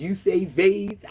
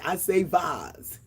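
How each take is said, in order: First: Vase said as vayz, slowly; vase rhyming with days. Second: Vase said as vahz, slowly; vase rhyming with Oz. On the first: Host teasing viewers about saying vase, slow, vayz. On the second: Host answering herself, slow, vahz. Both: Shown as a demonstration. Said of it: "pronounced all kinds of ways".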